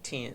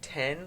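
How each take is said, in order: First: The vowel is an 'ih' sound, like tin. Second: The vowel is the usual 'eh' sound.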